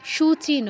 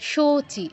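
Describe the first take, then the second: First: The first vowel is a 'u' sound. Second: The first vowel is an 'o' sound. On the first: The speaker calls it wrong. "সূচি নয়" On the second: The speaker calls it right. "ওকার আছে, উকার কিন্তু নেই"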